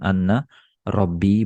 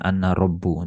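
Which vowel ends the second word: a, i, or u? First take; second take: i; u. First: The second word ends in an i vowel. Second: The second word ends in a u vowel.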